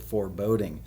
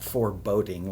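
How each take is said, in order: First: It is said as the ordinary word 'foreboding'. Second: It is said to sound like 'for boating'. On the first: It names a mood of dread. The speaker calls it right. "but foreboding" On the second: It refers to going out in a boat. The speaker calls it wrong. "not foreboding like we're going out on the lake in Grandpa's boat"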